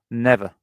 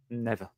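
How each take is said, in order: First: Never said louder and firmly, with a falling end; a louder, insistent Never; emphatic never. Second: A soft, dropped never; quiet never. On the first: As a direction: hit Never hard and firm. Repeats never, second time emphatic. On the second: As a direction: let the first never fall away under the breath. Repeats never quietly, then loud. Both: Real, not acted.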